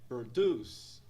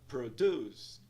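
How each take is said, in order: No difference in how they are said.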